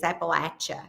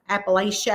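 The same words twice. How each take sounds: First: The middle sounds like 'apple at'. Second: The middle does not sound like 'apple at'. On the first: This is how locals say it. The speaker calls it right. "think of it as an apple at ya" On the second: This is how some other people say it. The speaker calls it wrong. "I think is what they say"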